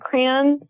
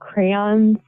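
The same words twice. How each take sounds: First: It is said the Michigan way. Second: It is said the standard way.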